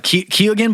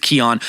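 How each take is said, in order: First: The name is given its American pronunciation. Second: The name is given its Irish pronunciation. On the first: The speaker calls it wrong. "Some Americans pronounce it uh" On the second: The speaker calls it right. "the actual pronunciation is"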